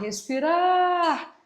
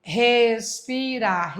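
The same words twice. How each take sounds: First: Respirar with RAR stretched long and high; stress on the last syllable. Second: Respirar slowly split into RES, PI, RAR; syllable-by-syllable demo. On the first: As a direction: hold the final RAR of respirar, pitched up. (respirar com RAR bem alongado e agudo) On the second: (Respirar silabado devagar, RES, PI, RAR) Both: Shown as a demonstration. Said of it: "A mais forte é a última".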